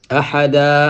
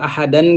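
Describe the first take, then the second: First: The word ends with an open 'a' sound. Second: The word ends with an 'an' sound. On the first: The reader stops on this word. "boo fa taxawee rek dag naan ahada" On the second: The reading continues without stopping. "xam nga ahadan ngay jàng jàng tanwin gi"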